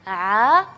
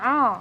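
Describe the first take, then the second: First: The vowel is voiced through the mouth only. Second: The vowel is voiced through the nose. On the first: The speaker calls it right. "seharusnya bacanya" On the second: The speaker calls it wrong. "jadi mengalihkan angin itu ke rongga hidung"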